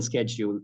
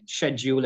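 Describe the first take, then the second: First: "schedule" starting with sk, SKED-yool; American pronunciation. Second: "Schedule" starting with sh, SHED-yool; British pronunciation. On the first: Contrasting the two forms for learners, American pronunciation. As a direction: open "schedule" on a hard SKE sound. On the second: Contrasting the two forms for learners, British pronunciation. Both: Shown as a demonstration. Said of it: "share and scare".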